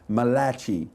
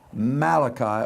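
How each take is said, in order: First: It is said in an Italian-sounding accent. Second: It is said in a plain English accent.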